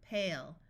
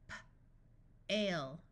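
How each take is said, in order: First: Said in the usual way. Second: Puffed P, pause, then "ale"; sounded out. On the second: Shown as a demonstration. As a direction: break "P-, ale" into separate sounds. Phonics teacher sounds out, then blends.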